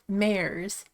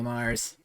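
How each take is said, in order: First: The name rhymes with 'cares'. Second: The name rhymes with 'cars'. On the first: This is how the reader used to say it. "I literally have pronounced it mares" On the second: This is the pronunciation the author intended. "she always read it as Mars"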